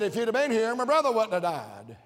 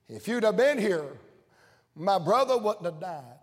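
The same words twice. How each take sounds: First: It sounds confrontational, like Martha in his face. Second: It sounds humble and broken, like Mary grieving.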